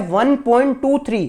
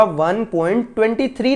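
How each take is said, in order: First: "वन पॉइंट टू थ्री" with each digit after the point said singly, टू then थ्री; correct digit by digit. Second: "वन पॉइंट ट्वेंटी थ्री" read with ट्वेंटी थ्री as one number, the wrong way; wrong reading of decimal. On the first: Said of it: "single single digit आपको पढ़ना होगा". ("वन पॉइंट टू थ्री" सही तरीका, हर अंक अलग-अलग) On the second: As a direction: say "वन पॉइंट ट्वेंटी थ्री" as the mistake to avoid, digits joined. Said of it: "नहीं पढ़ूंगा इसको". ("वन पॉइंट ट्वेंटी थ्री" गलत तरीका, अंक जोड़कर) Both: Shown as a demonstration.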